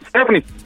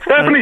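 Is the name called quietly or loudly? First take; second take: quietly; loudly. First: It is called politely and quietly. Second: It is shouted loudly.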